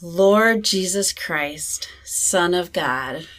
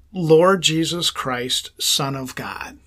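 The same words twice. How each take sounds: First: Slow, careful repeated prayer; slow breath prayer. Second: Slow, deliberate prayer words; slow breath prayer. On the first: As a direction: echo the prayer slowly. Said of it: "Repeat that, [name]". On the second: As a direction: pray it slowly on the in-breath. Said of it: "the words that you're gonna say". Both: Shown as a demonstration.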